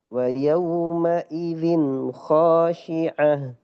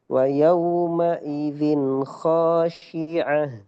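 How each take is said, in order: The two takes are said the same way.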